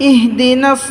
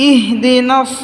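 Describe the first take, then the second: Both takes have the same delivery.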